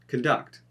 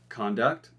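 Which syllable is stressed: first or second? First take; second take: second; first. First: The stress is on the second syllable. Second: The stress is on the first syllable. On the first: It is used as a verb. "then we're going to do the verb" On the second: It is used as a noun. "we're going to do the noun"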